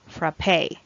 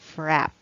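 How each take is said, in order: First: The word ends with a pronounced final vowel. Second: The word ends on the final consonant. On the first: "the first variant is frappe" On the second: "it has other variant, so you can say it also as frap"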